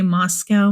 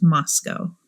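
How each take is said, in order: First: Moscow said as MOSS-kow; spelling pronunciation. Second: Moscow said as MOSS-koh; local pronunciation. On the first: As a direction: end Moscow like the animal "cow". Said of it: "I'm gonna say Moscow most likely". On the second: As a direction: end Moscow on OH, rhyming with "go". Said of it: "I know it's pronounced Moscow". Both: Shown as a demonstration.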